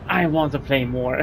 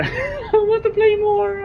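First: Said in the usual way. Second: High, slow strained stretching voice; stretching groan. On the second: Real, not acted. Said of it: "sorry, I'm stretching".

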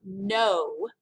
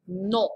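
First: No said slowly as English "no" with an open o glide; the wrong English no, drawn out. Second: Non with a nasal vowel and no n at the end; the right French non, nasal. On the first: Teacher showing the English no students should avoid. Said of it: "It's not no, like we would say it in English". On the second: Teacher showing the French nasal non. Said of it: "Get that French nasal sound going". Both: Shown as a demonstration.

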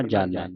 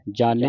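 First: ਜਾਣੈ with an open "ai" ending; correct reading. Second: ਜਾਣੈ ending in a narrow "e"; wrong reading. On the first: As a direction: end ਜਾਣੈ on a falling, lower "ai". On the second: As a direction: misread ਜਾਣੈ with a single-lavan "ay" ending. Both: Shown as a demonstration. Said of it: "ਨਹੀਂ ਪੜ੍ਹਨਾ".

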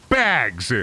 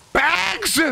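First: Said in the usual way. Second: "Bags?" squeaked up very high in disbelief; incredulous Bags. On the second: Shown as a demonstration. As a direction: act like the word Bags offends you.

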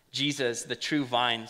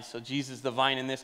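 First: True leaned on, vine settling; stress on true. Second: Said in the usual way. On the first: Shown as a demonstration. Pastor stressing to the church that Jesus is the true vine. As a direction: press on the word "true". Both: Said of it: "emphasis on the word true".

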